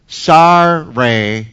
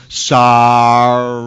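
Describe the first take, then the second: First: Low, sullen, clearly insincere sorry; grudging fake sorry. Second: Low, sullen, dragged-out sorry; a forced apology with no remorse; grudging fake sorry again. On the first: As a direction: mumble it like a boy forced to apologise. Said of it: "He's not". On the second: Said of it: "He doesn't".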